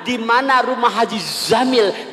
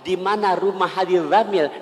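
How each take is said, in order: First: The name starts with a z sound. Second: The name starts with a thinner dh sound. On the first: "ditukar menjadi huruf zai" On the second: "kayak huruf dal yang ada titiknya, lebih tipis"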